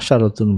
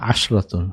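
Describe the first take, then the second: First: A vowel follows the sh sound. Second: No vowel follows the sh sound. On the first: The speaker calls it wrong. "একটা মিস্টেক হয়ে গিয়েছিল" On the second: The speaker calls it right. "শিনের মধ্যে সাকিন"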